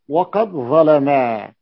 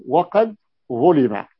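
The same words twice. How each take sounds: First: "ظلما" drawn out as ẓalamaa; slow ẓa-la-maaa on "ظلما"; active vowelling. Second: "ظلم" said slowly as ẓulima; drawn-out ẓu-li-ma for "ظلم"; passive vowelling. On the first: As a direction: read "ظلما" as active ẓalamā, very long final alif. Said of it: "فيكون الفعل مبنيا للمعلوم". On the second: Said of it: "إن بنيته للمفعول". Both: Shown as a demonstration.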